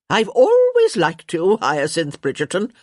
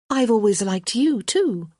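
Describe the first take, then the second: First: Crotchety countess. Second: Lightly voiced, higher-pitched young woman; young woman's reply. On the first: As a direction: proclaim it bluntly, leaning hard on "always". Countess declares her liking. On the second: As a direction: answer in kind, leaning on "you". Hyacinth returns the compliment. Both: A narrator's reading.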